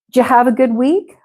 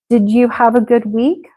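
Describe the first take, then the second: First: The question is said at a faster pace. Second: The question is said at a slower pace.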